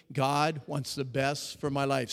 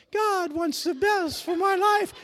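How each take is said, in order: First: Said in the usual way. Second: Put-on high, loud, slow girly shout; mock a girls' voice up high; guys sounding like girls. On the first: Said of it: "Say it with me". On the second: Shown as a demonstration. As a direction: falsetto crowd shout imitating girls. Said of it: "Just the guys sound like girls".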